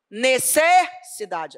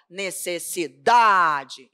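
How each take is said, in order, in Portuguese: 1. A sílaba tônica não fica na penúltima sílaba. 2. A sílaba tônica fica na penúltima sílaba. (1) "eu não falo necessidade" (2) "eu falo necessidade"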